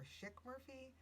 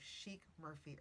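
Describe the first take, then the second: First: "Schick" with a short i vowel. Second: "Sheik" with a long ee vowel. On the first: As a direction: say "Schick" as "shick". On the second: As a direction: say "Sheik" as "sheek". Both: Shown as a demonstration. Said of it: "or Schick Murphy".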